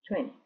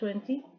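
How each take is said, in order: First: The second T is mostly dropped. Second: The second T is pronounced clearly and hard. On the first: "normalmente es veinte, como que se elimina esa T un poco" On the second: "hay personas que dicen un poco más duro la segunda T"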